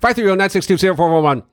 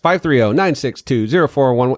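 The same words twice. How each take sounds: First: It is said very fast. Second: It is said at a normal speed.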